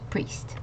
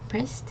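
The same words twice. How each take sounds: First: The vowel is a long E sound. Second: The vowel is not a long E sound. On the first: The speaker calls it right. "this I and the E makes a E sound again" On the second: The speaker calls it wrong. "not priest"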